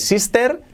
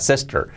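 First: The final R is weak or missing. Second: The final R is strongly marked. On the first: The speaker calls it wrong. "cuidado, no digáis sister, no" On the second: The speaker calls it right. "la I como una E y la R bien marcada al final"

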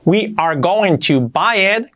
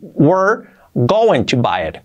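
First: 'We are' is said as two full words. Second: 'We are' is contracted into one syllable.

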